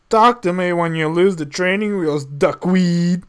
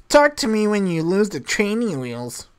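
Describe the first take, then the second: First: Put-on lightly growled Clint Eastwood accent, a bit louder. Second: A touch of lofty put-down; superior. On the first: Fergus trying out a tough line, mild Clint Eastwood accent. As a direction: try on a Clint Eastwood accent, half-hearted. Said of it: "tried out in the Clees-, Clint Eastwood accent". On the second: Acted. Sam coaching Fergus on a snooty brush-off, lightly superior. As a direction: brush him off from above, lightly. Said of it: "just act all superior and say".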